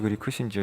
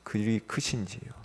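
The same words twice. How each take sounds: First: It is read flatly, without feeling. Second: It is read with strong feeling. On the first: The words pass by without being taken to heart. The speaker calls it wrong. "그냥 무덤덤하게" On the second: The words come from a personal relationship with God. The speaker calls it right. "감정을 넣어서"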